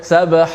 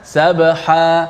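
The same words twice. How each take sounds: First: The word ends with an added glottal stop. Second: The word ends on an open vowel. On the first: The speaker calls it wrong. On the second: The speaker calls it right.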